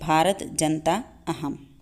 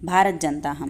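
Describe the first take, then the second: First: The words stay separate, with a full 'aham'. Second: The words join, with no vowel before 'ham'. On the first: "तब इसको अलग अलग आप उच्चारित कर सकते हैं" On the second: "यहाँ पर इसका उच्चारण नहीं होगा"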